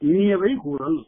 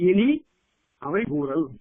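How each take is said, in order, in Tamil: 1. இது ஒரே சொல்லா ஒட்டிச் சொல்லப்படுது. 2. 'ini'க்கு அப்புறம் இடைவெளி விட்டுப் பிரிச்சுச் சொல்லப்படுது.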